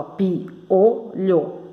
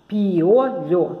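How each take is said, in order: First: PIOLHO slowly split into three beats; syllable by syllable. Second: PIOLHO measured out in three syllables. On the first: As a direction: clear gaps inside "piolho". ("piolho" bem devagar, sílaba por sílaba) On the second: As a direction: lightly separate each syllable of "piolho". ("piolho" dividido em três sílabas) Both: Shown as a demonstration. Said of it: "então tem três sílabas".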